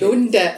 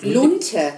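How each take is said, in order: First: The middle consonant is a soft d sound. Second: The middle consonant is a hard t sound. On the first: The speaker calls it wrong. "nicht Lunde" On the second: The speaker calls it right. "Lunte heißt das"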